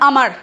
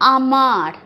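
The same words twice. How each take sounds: First: The word is said quickly with short vowels. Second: The first vowel is drawn out before the end. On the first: The speaker calls it wrong. "আমরা কিন্তু আমার বলে দিই না" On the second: The speaker calls it right. "এখানে একটা টান হবেই"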